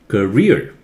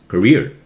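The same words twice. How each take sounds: First: The second syllable is stressed in an exaggerated way. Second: The second syllable is stressed in a natural way. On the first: "I'm exaggerating this accent so that you practice the right way" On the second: "When you speak normally, it becomes career"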